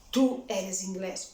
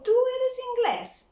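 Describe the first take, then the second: First: "Tú eres inglés" kept low as a statement. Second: "Tú eres inglés" pitched high and loud as a question. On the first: Tutor showing it without the question mark, statement tone. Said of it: "read like a statement". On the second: Tutor reading the question for a man, question tone. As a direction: raise the voice right up on "Tú eres inglés" to ask it. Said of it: "higher it a bit". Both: Shown as a demonstration.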